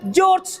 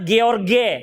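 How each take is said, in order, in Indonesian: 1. Dibaca seperti cara orang Inggris membaca huruf. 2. Dibaca seperti cara orang Indonesia membaca huruf. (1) "Mereka membaca George" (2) "kita membaca George"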